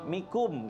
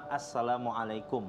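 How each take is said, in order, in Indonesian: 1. Salam itu dipersingkat menjadi dua suku kata. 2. Salam itu diucapkan lengkap, setiap suku katanya. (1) "Padahal salah dalam pengucapannya dia" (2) "terus dia bilang Assalamualaikum"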